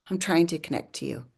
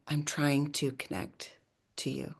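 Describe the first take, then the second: First: Said in the usual way. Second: Quiet plea. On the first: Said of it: "I'm like". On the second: Retold or imitated. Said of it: "I put my hands on the sink and I'm like".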